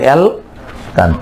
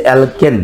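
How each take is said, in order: First: অ্যালকান drawn out, ending in open "kaan"; drawn-out changed ending. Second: Said in the usual way. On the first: Shown as a demonstration. Teacher showing what remains once e goes, slow "kaan" ending in অ্যালকান. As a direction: stretch অ্যালকান slowly, "kaan" instead of "ken". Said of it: "ইটা চলে গেলে কি হবে". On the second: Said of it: "এর নাম হচ্ছে".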